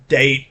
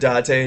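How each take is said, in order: First: It is said like the English word date. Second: It is said with Japanese vowels, da-te. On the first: The speaker calls it wrong. "don't apply fucking English pronunciation rules" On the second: The speaker calls it right. "clearly a Japanese word"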